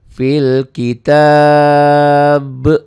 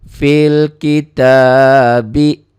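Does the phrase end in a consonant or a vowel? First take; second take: consonant; vowel. First: The phrase ends on a bare consonant. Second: The phrase ends with a final vowel sound. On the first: The reading stops at this word. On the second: The reading continues into the next word.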